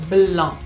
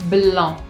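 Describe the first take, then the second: The two takes are said the same way.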